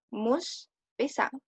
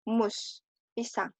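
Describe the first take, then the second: No difference in how they are said.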